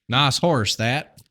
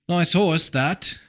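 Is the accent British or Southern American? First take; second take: Southern; British. First: It is said in a Southern accent. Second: It is said in a British accent.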